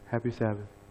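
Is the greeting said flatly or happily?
flatly. The greeting is said flatly, without joy.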